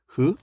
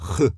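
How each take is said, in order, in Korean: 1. 흐 소리는 부드럽게 그냥 숨을 내쉬는 소리예요. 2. 흐 소리는 목을 거칠게 긁어서 내요. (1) "그냥 흐 발음이에요" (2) "약간 목을 긁어서 내는 흐"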